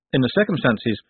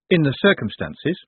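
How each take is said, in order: First: Measured, dry statement from the lawyer; the lawyer states it plainly; lawyer's phrase. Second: Higher questioning echo, rising at the end; incredulous echo. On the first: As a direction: lay it down flatly, matter of fact. Slant's phrase, echoed as a question. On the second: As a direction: throw the phrase back in disbelief. Moist echoes the phrase in disbelief. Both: Acted.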